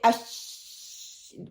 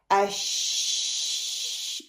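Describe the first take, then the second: First: The sh sound is restricted and cut short. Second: The sh sound flows out freely and continuously. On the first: The speaker calls it wrong. "it means I'm restricting the makhrij" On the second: The speaker calls it right. "sound should be freely. I can hear the ash. This is the rehawa"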